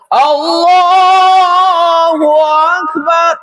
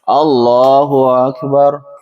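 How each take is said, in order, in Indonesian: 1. Frasa Allahu Akbar diucapkan dengan lebih keras. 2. Frasa Allahu Akbar diucapkan dengan volume biasa. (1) "dengan pengucapan yang lebih keras" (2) "contohnya ya"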